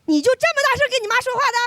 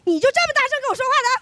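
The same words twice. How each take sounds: First: Fast, high mock mom scolding; mother snapping at her kid for talking back; mom's scolding. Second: Fast, high mock scold, laughing; mom's scolding echoed back. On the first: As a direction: rattle it off like a nagging mother. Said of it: "这句话就是". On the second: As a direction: fire her line back at her. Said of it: "我给她讲道理".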